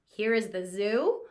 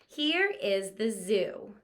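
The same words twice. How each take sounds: First: It is said with a rising, questioning tune. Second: It is said calmly, falling like a statement. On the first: It asks something. The speaker calls it wrong. "We wouldn't read it like it was a question mark sentence" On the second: It simply tells something. The speaker calls it right. "So we read it just like this"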